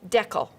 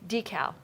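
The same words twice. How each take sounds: First: It is said the Canadian way. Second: It is said in a non-Canadian way.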